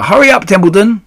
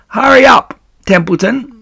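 First: High, loud, rising plea; frantic urging. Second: Rat's high, loud mimicry of a plea; Wilbur, mocked. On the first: Acted. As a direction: urge him on desperately. Wilbur urging the dawdling rat. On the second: A narrator's reading. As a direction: mimic a frantic urging, sneering. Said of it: "He began imitating Wilbur's voice".

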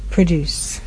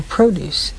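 First: Produce with stress on DUCE, weak first vowel; verb produce. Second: Produce with stress on PRO, long O; noun produce. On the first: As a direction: say produce as pruh-DOOCE, the verb. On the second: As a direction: say produce as PROH-dooce, the noun. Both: Shown as a demonstration. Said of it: "two different pronunciations".

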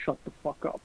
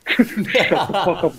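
First: Breathy under-the-breath whisper, no voice; whispered embarrassed snap at a teasing friend; whispered shut the fuck up. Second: Slow, laughing through shut the fuck up; embarrassed laughing retort to a teasing friend. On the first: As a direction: hiss shut the fuck up without voicing. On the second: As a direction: say it while cracking up, drawn out. Retold snap while laughing. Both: Retold or imitated.

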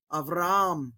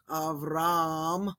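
First: "Avram" as av-ra-AM, second A stressed; "Avram" with a fresh accented A before the M; stress on second alpha. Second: "Avram" with one long held A at the end; "Avram" as two syllables, final A stretched; held-out vowel. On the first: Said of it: "that second one kind of the stress". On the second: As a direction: hold out the last vowel of "Avram". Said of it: "Instead of holding that out". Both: Shown as a demonstration.

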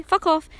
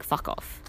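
First: Higher, louder, exasperated repeat; emphatic fuck off. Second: Breathy, hushed, bitter aside; muttered fuck off. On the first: Woman fed up with advice, louder emphatic fuck off. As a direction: push it out, really meaning it this time. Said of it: "Like, seriously". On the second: Woman quietly brushing off unwanted advice, a hushed fuck off. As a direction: say it under your breath, almost unvoiced. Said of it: "you're like". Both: Retold or imitated.

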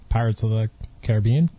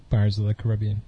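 First: "Caribbean" as ca-rib-BEE-an, rising; Caribbean, stress on BE. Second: "Caribbean" as ca-RIB-ee-an; Caribbean, stress on RIB. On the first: Host asking which way Disneyland says it, stress on BE. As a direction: stress the third syllable of "Caribbean". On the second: Host offering the other option for Disneyland, stress on RIB. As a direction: stress the second syllable of "Caribbean". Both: Shown as a demonstration. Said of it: "how do they say it".

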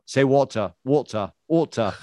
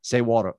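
First: "water" with the final r dropped, like "wault-uh"; imitated accent pronunciation. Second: Said in the usual way. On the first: Friends teasing his wife about her accent, "water" mimicked as "waul-tuh". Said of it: "'cause there's no W". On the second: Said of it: "friends who just walk up and say".

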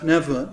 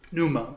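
First: "pneuma" said as PNEV-ma, p sounded and a v; Greek pronunciation. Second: "pneuma" said as NOO-ma, with a silent p; alternative pronunciation. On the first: Teacher correcting to the Greek, "pneuma" as PNEV-ma. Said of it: "it's pronounced pneuma in, in Greek". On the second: Teacher quoting how some people say it, "pneuma" as NOO-ma. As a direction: say "pneuma" the common English way, NOO-ma. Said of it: "some people say pneuma, but it's pronounced". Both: Shown as a demonstration.

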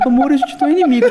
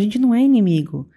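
First: Higher, louder, half-laughing imitation of her husband; mock tender husband. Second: Said in the usual way. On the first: Wife mimicking her husband's calm line, teasing and laughing. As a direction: ham up his soulful line while giggling. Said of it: "Imagina o Leandro". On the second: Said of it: "Então ele falou pra mim".

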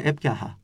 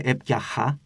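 First: Just breathe the χ in έπια χα; English-style h. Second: Έπια χα with a rasped Greek χ; Greek chi, rejected. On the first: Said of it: "Είναι όπως το γερμανικό το, ή το αγγλικό το H". (έπια χα με απαλό χ σαν αγγλικό H) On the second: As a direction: scrape the χ in έπια χα. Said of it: "Άρα δεν λένε έπια χα". (έπια χα με τραχύ ελληνικό χι) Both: Shown as a demonstration.

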